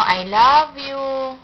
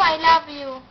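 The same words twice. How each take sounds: First: Very slow, drawn-out prompt to copy; slow modelling. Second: Said in the usual way. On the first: Shown as a demonstration. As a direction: stretch out LOVE for a child to repeat. Models words for child to repeat. (mabagal at pahabang pagbigkas)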